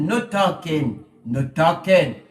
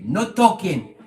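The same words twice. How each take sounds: First: Put-on deep, slow Eastern European accent, louder. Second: Deep mock Eastern European accent, loud. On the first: Repeating the warning to the jealous person in an Eastern European accent. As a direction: drag it out in a gruff Eastern European voice. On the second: A voice in the jealous person's head, in a mock Eastern European accent. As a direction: bark it like a stern Eastern European guard. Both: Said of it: "in a deep European, Eastern European accent".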